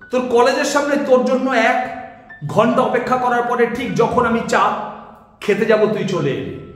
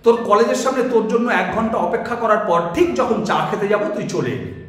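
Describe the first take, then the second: First: It stops at two unplanned points mid-sentence. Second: It runs through in one breath without stopping. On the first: The speaker calls it wrong. "আপনি দু জায়গায় থামলেন ঠিকই, কিন্তু পরিকল্পনা ছিল না।" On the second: The speaker calls it right. "একদমে বলতে হবে, অর্থাৎ আপনি এভাবে বলতে পারেন"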